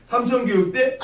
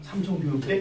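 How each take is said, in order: First: Scornful disbelief. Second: Said in the usual way. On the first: Retold or imitated. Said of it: "뭐 이렇게 하는 거야". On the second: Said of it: "뭐 이렇게 하면 이제".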